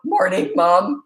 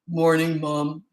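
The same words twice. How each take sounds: First: The voice cracks unevenly while speaking. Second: The voice stays steady and deep throughout. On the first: The boy is still going through puberty. "the voice cracking" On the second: The boy has grown into a man. "his voice stopped cracking"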